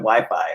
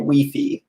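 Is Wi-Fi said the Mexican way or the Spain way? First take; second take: Mexican; Spain. First: It is said the way people in Mexico say it. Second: It is said the way people in Spain say it. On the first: "it's not like this in Mexico" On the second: "in Spain they'll say Wi-Fi"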